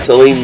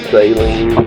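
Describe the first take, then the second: First: The name is said short and plainly. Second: The name is drawn out with a longer vowel.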